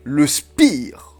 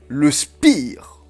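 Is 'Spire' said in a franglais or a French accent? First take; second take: French; French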